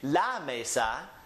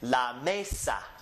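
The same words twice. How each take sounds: First: The stress is on the last syllable. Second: The stress is on the first syllable. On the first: The speaker calls it wrong. "we don't say la mesa" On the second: The speaker calls it right. "we say la mesa"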